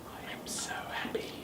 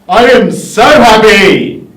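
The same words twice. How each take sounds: First: It is said quietly. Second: It is said loudly.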